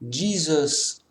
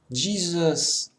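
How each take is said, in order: First: The name is pronounced the English way. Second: The same.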